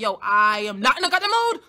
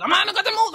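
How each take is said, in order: First: Louder, fed-up quote, level pitch; louder fed-up retort. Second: Much higher, louder shout, laughing through it. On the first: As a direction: snap it out, done with everything. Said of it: "And I'm just like". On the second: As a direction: yell it out while cracking up. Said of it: "I was like". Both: Retold or imitated.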